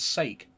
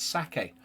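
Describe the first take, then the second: First: It is pronounced like English 'for God's sake'. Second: It is pronounced the Japanese way. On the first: The name is read as a familiar English phrase. "to my Scottish eyes, I can't help but see it as sake" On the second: The name comes from a Japanese-themed setting. "it's got a Japanese tone... so I'm guessing it's sake"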